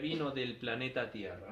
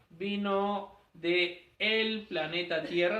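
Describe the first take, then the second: First: The words 'de' and 'el' merge into 'del'. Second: The words 'de' and 'el' are said separately. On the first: The speaker calls it right. "simplemente sería" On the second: The speaker calls it wrong. "no se dice"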